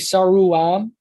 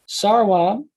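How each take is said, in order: First: The middle sound is a full u vowel. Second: The middle sound is a gliding w. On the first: The speaker calls it wrong. "instead of a u, like it wouldn't be saruam" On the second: The speaker calls it right. "it would be sarwam"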